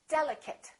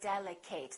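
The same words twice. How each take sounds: First: The final syllable has a weak, reduced vowel. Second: The final syllable has a full 'ate' vowel. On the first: The speaker calls it right. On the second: The speaker calls it wrong.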